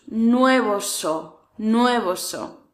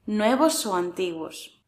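First: "Nuevos o" stretched slowly, falling; slow drill. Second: Said in the usual way. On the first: Shown as a demonstration.

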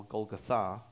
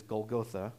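First: Golgotha stressed at the end, gol-go-THA, with an open final ah; stress on last syllable. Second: Golgotha with the stress on the first syllable, GOL-go-tha; common pronunciation. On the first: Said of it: "puts the emphasis on the last syllable". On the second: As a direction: say Golgotha the familiar English way, leaning on GOL. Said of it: "or sometimes they pronounce it Golgotha". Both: Shown as a demonstration.

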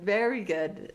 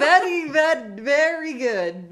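First: Said in the usual way. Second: High, loud, drawn-out mock Russian accent; Russian accent faltering. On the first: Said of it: "she stops herself". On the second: Host mimics friend catching herself mid-phrase, Russian accent breaking off. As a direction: start mock Russian, correct yourself slowly, amused. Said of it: "realized partway through that the guy was actually Russian".

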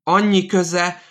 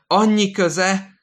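First: Much higher, louder shout; shouted repeat. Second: High, loud and slow; slow shouted repeat. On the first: Old man in hospital bed shouting at the nurse, shrill yell. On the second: Old man repeating his words to the nurse, slow high shout. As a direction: drag the annyi out in a shout. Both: Acted. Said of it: "ismétli".

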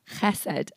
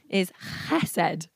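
First: Chesed again, slower and lower, throaty ch; lower, careful repeat of chesed with the guttural ch; Hebrew word, repeated. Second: Chesed with a throaty breathy ch, like air rushing out; Hebrew pronunciation. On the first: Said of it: "air-conditioned voice". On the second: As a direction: say chesed from the throat, an airy rasp on the ch. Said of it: "said very well with a, um, air-conditioned voice". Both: Shown as a demonstration.

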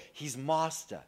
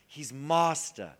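First: Said in the usual way. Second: He's Master drawn out very slowly, each word weighed; He's Master, spoken slowly and solemnly; slow emphatic. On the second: Shown as a demonstration.

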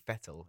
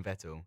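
First: "Vettel" starting with an F sound; German-style F. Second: "Vettel" with an initial V sound; standard pronunciation. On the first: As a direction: say "Vettel" as if spelt Fettel. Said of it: "Germans pronounce their V's like an F". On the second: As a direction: say "Vettel" with a clear V. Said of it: "you're meant to say Sebastian Vettel". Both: Shown as a demonstration.

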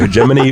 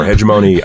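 First: Hegemony said heh-JEM-uh-nee; alternative pronunciation. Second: Hegemony said HEJ-uh-moh-nee; other pronunciation. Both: Shown as a demonstration. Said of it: "no idea how it's supposed to".

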